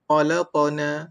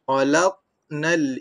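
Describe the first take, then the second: First: The q is followed by an a-like vowel. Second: The q is unvowelled with a short echo. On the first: The speaker calls it wrong. "huruf yang mati dengan mirip kepada baris atas" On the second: The speaker calls it right. "Saya baca itu dalam bentuk qalqalah. Matikan huruf"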